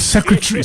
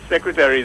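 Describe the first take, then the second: First: The word has a non-American pronunciation. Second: The word has an American pronunciation. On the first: "instead of" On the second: "I refer to Miss Shillingford as my secretary"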